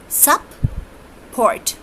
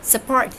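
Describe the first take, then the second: First: Sup-port broken into sup and port, higher; syllable split support. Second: Said in the usual way. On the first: Shown as a demonstration. Teacher breaking sup-port into syllables for students. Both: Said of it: "support has two syllables".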